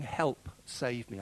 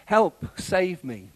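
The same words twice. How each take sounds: First: Slow, softer plea; inward thought. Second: Slow cry, raised and louder; Peter's cry for help. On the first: Retold or imitated. Worshippers sitting there silently needing saving, quiet inward plea. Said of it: "have sat there thinking". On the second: A narrator's reading. Peter sinking and crying to Jesus, drawn-out call for help. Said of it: "Peter cried".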